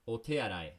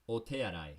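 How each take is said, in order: The two takes are said the same way.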